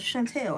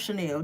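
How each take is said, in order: First: The name is said with an added t sound. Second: The name is said without a t sound. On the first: The bag is a fake copy. The speaker calls it wrong. "I'm purposefully mispronouncing it because it's not real" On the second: The bag is a genuine designer item. The speaker calls it right. "Like I know it's Chanel"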